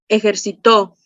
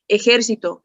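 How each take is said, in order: First: The stress is on the last syllable. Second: The stress is on the third-to-last syllable. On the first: "es una palabra aguda. ¿Por qué? Porque su sílaba tónica está en la última" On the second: "es una palabra esdrújula porque su sílaba tónica está en la antepenúltima"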